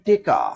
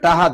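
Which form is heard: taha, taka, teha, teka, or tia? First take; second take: teka; taha. First: Said teka, with e and k. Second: Said taha, with an h in the middle. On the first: Mymensingh regional form. "কোন অঞ্চলে কয় টেকা ... Mymensingh" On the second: Barishal regional form. "বরিশালেরা কি কয়? টাহা"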